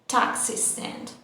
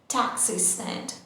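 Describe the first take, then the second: No difference in how they are said.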